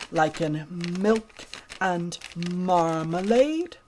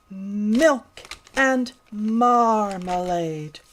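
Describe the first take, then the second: First: Said in the usual way. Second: Slow, drawn-out mm sounds; milk and marmalade stretched with long mm; slow, careful. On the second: Shown as a demonstration. Little pig slowly practising milk and marmalade. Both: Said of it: "Can you make the mm sound".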